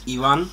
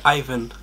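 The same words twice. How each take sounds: First: The name is said the Spanish way. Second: The name is said the English way. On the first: This is the name's real pronunciation. "the real pronunciation is Ivan in Spanish" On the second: This is how English speakers say it. "And in English, they say Ivan"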